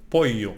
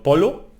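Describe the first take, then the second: First: Pollo said with a y sound, po-yo; correct pronunciation. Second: Polo said with a plain l sound, as the mistake; wrong pronunciation. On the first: Teacher correcting polo to pollo with a y sound. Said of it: "no polo, pollo". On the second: Teacher showing learners the wrong polo. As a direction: say polo with a clear l, as the wrong version. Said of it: "no polo". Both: Shown as a demonstration.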